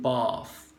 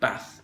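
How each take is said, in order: First: The vowel is long and drawn out. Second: The vowel is short and sharp. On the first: "certain long vowels" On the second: "northern England ... a sharp declining A"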